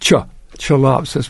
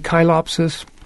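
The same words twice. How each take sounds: First: It is pronounced the American English way. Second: It is pronounced the school Latin way. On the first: "in America, American English Latin botany or whatever, it's Chilopsis" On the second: "If you took Latin in middle school, you might be tempted to say Chilopsis"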